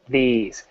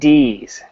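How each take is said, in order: First: The word starts with a 'th' sound. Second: The word starts with a 'd' sound. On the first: The speaker calls it right. "not these" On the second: The speaker calls it wrong. "you're saying D's"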